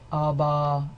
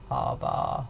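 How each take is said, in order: First: The voice is plain, neither breathy nor creaky. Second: The voice is creaky, with a rough rattle. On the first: "then I've got neither" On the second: "all of these consonants are produced with creaky voice"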